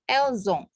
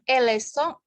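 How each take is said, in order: First: It is said with a linking Z sound. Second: It is said with an S sound before the vowel. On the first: The speaker calls it right. "dia memberi sambungan Z. Jadi elzong" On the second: The speaker calls it wrong. "Bukan elesong"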